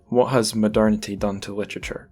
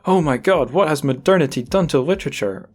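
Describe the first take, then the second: First: It is asked in a neutral, plain tone. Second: It is asked in a dismayed, exasperated tone.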